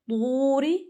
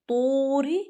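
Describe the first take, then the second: The two takes are said the same way.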